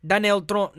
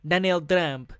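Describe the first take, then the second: First: Put-on botched Russian accent. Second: Put-on Russian accent gone French. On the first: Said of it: "That sounds fucking French". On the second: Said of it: "Vladimir Putin is now a French".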